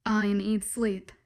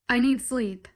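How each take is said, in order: First: "I need sleep" dragged out slowly, grumbling; slow tired grumble. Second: Said in the usual way. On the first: A narrator's reading. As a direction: drag it out, tired and whiny. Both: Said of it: "I grumble".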